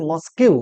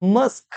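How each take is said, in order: First: মস্কিউ ending in "-kyu", as spelled; mispronounced mosque. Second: মস্ক in one syllable, ending on "sk"; corrected mosque. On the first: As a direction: say মস্কিউ in two syllables, "mos-KYU". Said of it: "আমি অনেককে শুনেছি". (মস্ক-কে ভুল করে "মস্কিউ") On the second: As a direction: say মস্ক as "mask", no "-kyu" ending. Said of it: "সঠিক উচ্চারণ কি হবে?". (মস্ক-এর সঠিক উচ্চারণ, এক দলে) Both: Shown as a demonstration.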